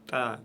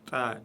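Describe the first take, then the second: First: The syllable is said light and thin. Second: The syllable is said light and thin.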